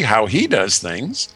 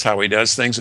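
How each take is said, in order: First: Slower, with HE picked out; emphasis on "he", drawn out a little; stress on HE. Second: Said in the usual way. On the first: Real, not acted. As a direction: lean on "he" to mark the contrast. Contrasts God's adversary with God.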